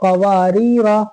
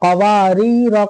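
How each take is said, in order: The two takes are said the same way.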